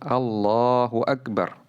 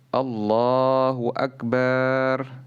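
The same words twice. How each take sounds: First: The vowel after the b is kept short. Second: The vowel after the b is drawn out long. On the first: It states that God is the greatest. The speaker calls it right. "Yang benar adalah Allahu Akbar" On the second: It refers to a drum. The speaker calls it wrong. "tidak boleh memanjangkan huruf ba menjadi akbar ... ini salah"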